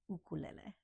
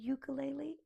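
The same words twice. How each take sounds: First: The word begins with an 'oo' sound. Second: The word begins with a 'yoo' sound. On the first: The speaker calls it right. "it's an ukulele" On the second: The speaker calls it wrong. "it's not a ukulele"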